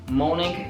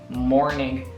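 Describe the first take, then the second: First: British accent, with no R sound. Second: American accent, with the R sounded. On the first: "morning in British" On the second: "morning with the R is in the American accent"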